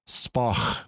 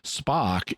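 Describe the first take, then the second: First: The name ends with a rough throaty sound. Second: The name ends with a hard k sound. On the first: "with the guttural sound" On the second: "just the English pronunciation of his name"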